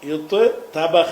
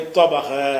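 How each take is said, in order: First: The two t sounds are said separately. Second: The two t sounds merge into one doubled sound. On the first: The speaker calls it wrong. "நமக்கு சொல்ல வரமாட்டேங்குது" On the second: The speaker calls it right. "அந்த தேய தோயாக மாத்துறாங்க"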